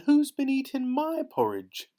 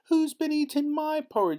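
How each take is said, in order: First: The voice is gentle and soft. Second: The voice is high and squeaky. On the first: "in her gentle little voice" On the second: "in his squeaky little voice"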